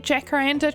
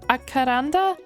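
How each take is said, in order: First: The word begins with a J sound. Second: The word begins without a J sound. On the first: This is the local New Zealand way. "I think that's how we say it in New Zealand" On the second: This may be the more correct way. "Is it more like acaranda?"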